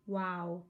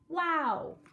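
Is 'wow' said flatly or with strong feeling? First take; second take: flatly; strong feeling. First: It is said flatly, without strong feeling. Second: It is said with strong, excited feeling. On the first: "Do you think reading it like this" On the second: "the way I'm going to read this is with a strong feeling"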